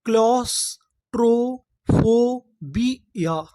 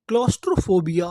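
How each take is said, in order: First: claustrophobia drawn out slowly, syllable by syllable; slow syllable blend. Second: Said in the usual way. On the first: Shown as a demonstration. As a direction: spell out claustrophobia slowly for students. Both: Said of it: "तो देखिए हमारी पूरी meaning क्या बनी?".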